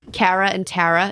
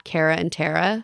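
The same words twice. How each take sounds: First: Cara and Tara with Philly vowels; Philly pronunciation. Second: Said in the usual way. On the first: Shown as a demonstration. Showing hosts mom's accent, Cara and Tara said Philly-style. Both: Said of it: "It's not Cara and Tara".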